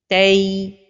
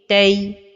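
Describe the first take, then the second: First: The final vowel is drawn out long. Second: The final vowel is kept short. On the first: The speaker calls it wrong. "donner beaucoup de temps à la fin de prononciation" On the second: The speaker calls it right. "la prononciation correcte"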